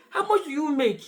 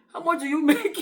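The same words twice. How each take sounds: First: Mock interviewer asking in earnest; serious. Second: Higher-pitched question tipping into giggles; mock interviewer cracking up at the end; breaking into laughter. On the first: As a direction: put the question straight, without a giggle. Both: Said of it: "some will be serious".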